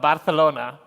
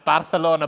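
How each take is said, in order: First: It is said with a Spanish-style pronunciation. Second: It is said with a plain English pronunciation.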